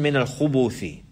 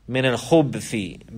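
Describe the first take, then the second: First: The ba sound is followed by a u vowel. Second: The ba sound has no vowel after it. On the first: "with a dhamma on the kha and the ba" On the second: "Bis-sukun al-ba"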